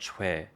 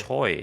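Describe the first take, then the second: First: It is said with a 'w' glide and 'eh' vowel. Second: It rhymes with 'boy', ending in an oy glide. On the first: This is how Korean people say it. The speaker calls it right. "it sounds more like C H W E" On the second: This is how English speakers say it. The speaker calls it wrong. "they call it Choi"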